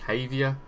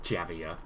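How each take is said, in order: First: The name begins with an H sound. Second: The name begins with a J sound. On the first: "Is it pronounced as a H?" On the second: "It's not Javier"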